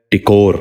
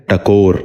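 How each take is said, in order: First: ٹکور with short i, "tikor"; first vowel of ٹکور as short i; mispronounced. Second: ٹکور with short a, "takor"; first vowel of ٹکور as short a; correct pronunciation. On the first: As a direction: say ٹکور as "ti-KOR". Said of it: "یہ غلط تلفظ ہے". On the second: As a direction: say ٹکور as "ta-KOR". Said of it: "درست تلفظ ہے". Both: Shown as a demonstration.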